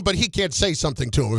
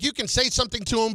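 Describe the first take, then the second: First: "he" stressed at normal pitch, brisk pace. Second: "you" hit high and fast; stress on you. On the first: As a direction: put the weight on "he" to contrast with "you". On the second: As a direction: lean hard on the word "you" to set it against "he". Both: Shown as a demonstration.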